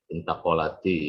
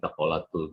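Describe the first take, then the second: First: The verb ends with a linking i vowel. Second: The verb ends with a linking u vowel. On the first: The speaker calls it right. "Intaqalati ya, karena sukun" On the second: The speaker calls it wrong. "jangan intaqalatul zaujah"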